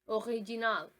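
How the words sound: It is pronounced the French way. "the first one is French"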